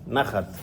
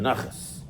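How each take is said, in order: First: Hebrew accent, ending in a t sound. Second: Yiddish accent, ending in an s sound. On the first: "it's actually Hebrew, It's nachat" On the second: "In Yiddish, it's a naches"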